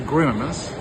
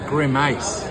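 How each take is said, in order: First: Said in the speaker's own usual pronunciation. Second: Said in a different, imitated pronunciation. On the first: This is the speaker's normal way of saying it. "which is how I would pronounce it" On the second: Someone else said it this way. "but he pronounced it as a grimace"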